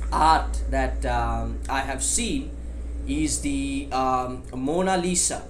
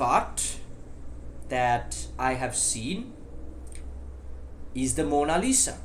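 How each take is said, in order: First: The gaps are filled with the sound 'um'. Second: The gaps are brief silent pauses without fillers. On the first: The speaker calls it wrong. "Now I said um three times" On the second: The speaker calls it right. "Now I didn't say uh uh, I paused"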